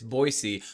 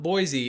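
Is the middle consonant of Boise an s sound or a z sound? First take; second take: s sound; z sound. First: The middle consonant is a hissing s sound. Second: The middle consonant is a buzzing z sound. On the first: The speaker calls it right. "there's no Z" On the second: The speaker calls it wrong. "it's not Boise"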